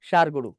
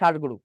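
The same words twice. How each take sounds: First: The first consonant is said with a hiss. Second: The first consonant is said without a hiss. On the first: The speaker calls it wrong. "ষাঁড় গরু বলি না" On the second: The speaker calls it right. "মূর্ধন্য সাথে শীষ আসে না"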